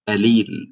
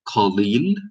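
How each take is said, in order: First: The word begins with a glottal stop instead. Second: The word begins with a deep q consonant. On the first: "we would say alil" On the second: "instead of saying qalil"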